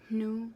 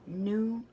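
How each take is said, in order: First: It begins with a faint breathy H before N. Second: It begins with a plain N sound. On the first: The speaker calls it right. "So the H is still very much there" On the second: The speaker calls it wrong. "It's not new"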